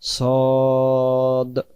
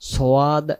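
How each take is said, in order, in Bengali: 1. স্বরটি ছোট, কোনো গ্লাইড নেই। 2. স্বরটি গ্লাইডসহ টেনে বলা হয়। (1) "উচ্চারণ নাম সদ" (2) "সোয়াদ এমন হবে না"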